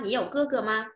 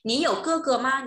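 First: Said in the usual way. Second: Higher, louder first read of "Nǐ you ge ge ma?"; "Nǐ you ge ge ma?" said high and loud, clearly stressed on "you"; emphatic model question. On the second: Shown as a demonstration. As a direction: pitch it up and push it out like a teacher's model. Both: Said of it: "repeated model question".

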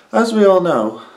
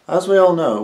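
First: Higher and louder, punched; emphatic. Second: Said in the usual way. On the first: Acted. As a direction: belt it out with emphasis. Second take, bigger delivery.

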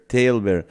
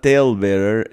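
First: "Tail bearer" with weight on "Tail" and a falling finish; corrected stress. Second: "tail bearer" with a questioning rise on "tail"; wrong stress. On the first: Fixing the pun for viewers, "Tail bearer" said the right way with a firm fall. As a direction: land "Tail bearer" firmly, falling at the end. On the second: Correcting her own pun for the viewers, "tail bearer" with a rising wrong take. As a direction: say "tail bearer" lifting up at the end, as the wrong version. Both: Shown as a demonstration. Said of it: "Not tail bearer".

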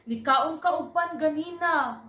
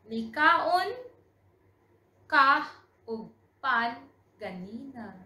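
First: Higher, louder, all words linked; fluent run-through. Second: Word by word, long pauses, louder opening. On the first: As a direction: sing out the whole sentence in one go. Fluent repeat after slow model. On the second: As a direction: break the sentence up for learners. Slow model before fluent repeat. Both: Shown as a demonstration.

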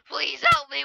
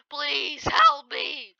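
First: Higher and louder, quick cry for help; quick plea. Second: Slow, high, stretched cry for help; drawn-out plea. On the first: Player begging mid-fight, quick higher cry. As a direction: fire it out fast. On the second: Player begging mid-fight, slow stretched wail. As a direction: stretch every word like slow motion. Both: Real, not acted.

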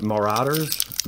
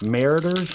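First: Marauders said slowly, stressed on the middle syllable; alternative pronunciation. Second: Mariners said as MARE-uh-ders, stressed up front; higher try at Mariners, pronounced MARE-uh-ders; alternative pronunciation. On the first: Unsure how to say a card name, Marauders with middle stress. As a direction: say Marauders as muh-RAW-ders, drawn out. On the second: Unsure how to say a card name, Mariners as MARE-uh-ders. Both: Shown as a demonstration. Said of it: "I don't know how to say it".

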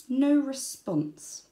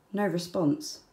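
First: Very slow No response; slow flat letdown. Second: Said in the usual way. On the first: A narrator's reading. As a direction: drag it out, deadpan. Wombat let down.

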